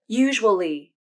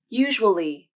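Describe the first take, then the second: No difference in how they are said.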